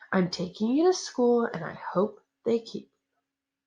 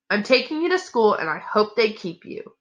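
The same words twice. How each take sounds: First: The line is spoken in a low mumble. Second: The line is spoken in a clear voice. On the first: The speaker calls it right. "let me reread that at a mumble" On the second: The speaker calls it wrong. "I'm sorry"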